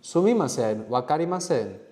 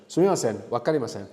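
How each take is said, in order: First: "wakarimasen" held up like a question; questioning tune. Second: Said in the usual way. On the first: Real, not acted. Teacher modelling Japanese with a question in mind, questioning tune on "wakarimasen". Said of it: "that sounded like a question". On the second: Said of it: "Sorry, that sounded like a question".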